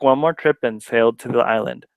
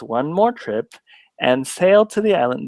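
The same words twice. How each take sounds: First: The word "and" is reduced to a schwa. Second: The word "and" is said with its full vowel. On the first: "the way I just said it ... that's a schwa" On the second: "Then you're not saying uh, it's and"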